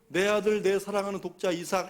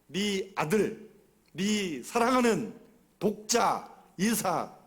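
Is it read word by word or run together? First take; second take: run together; word by word. First: The words are run together without separation. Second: Each word is pronounced separately and deliberately.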